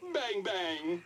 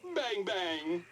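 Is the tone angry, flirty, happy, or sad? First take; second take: happy; happy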